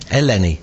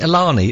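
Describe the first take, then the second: First: The middle syllable sounds like 'len' in Lenny. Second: The middle syllable does not sound like 'len'. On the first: The speaker calls it right. "as in like Lenny" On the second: The speaker calls it wrong. "I keep saying it wrong tonight"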